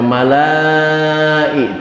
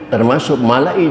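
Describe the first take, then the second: First: A long vowel runs on without a stop. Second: A clear glottal stop breaks the vowels. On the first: The speaker calls it wrong. "jangan dibaca mala'i" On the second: The speaker calls it right. "karena di sana hamzah hidup bukan alif mati"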